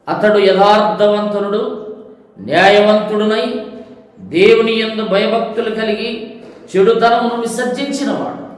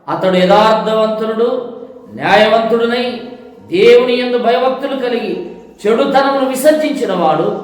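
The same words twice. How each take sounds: The two takes are said the same way.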